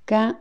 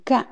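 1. Le mot est prononcé sans ton descendant. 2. Le mot est prononcé avec un ton descendant. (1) "Le premier, c'est gan" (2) "quatrième ton"

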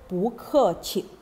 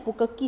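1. Suku kata terakhir dimulai dengan bunyi seperti ch. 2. Suku kata terakhir dimulai dengan bunyi k keras. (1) "kita kena sebut pu ke qi" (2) "Pu ke ki salah"

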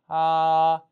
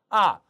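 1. 음이 높고 평평하게 유지됩니다. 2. 음이 높은 데서 낮게 급하게 떨어집니다. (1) "한번더 일성" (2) "사성"

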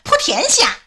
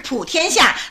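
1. 它用的是河南方言的发音。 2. 它用的是京剧舞台的发音。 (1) "那我们河南戏说普天下是普天下" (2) "你像京剧就是普天下"

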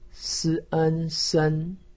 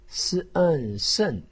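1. 一声，音高一直保持在高而平。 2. 四声，音从高处急剧往下降。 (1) "一声" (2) "四声"

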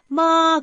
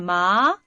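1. 이 음절의 음높이는 올라가지 않아요. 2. 이 음절의 음높이는 올라가요. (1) "마 그러면 엄마예요" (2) "올라가셔야 됩니다"

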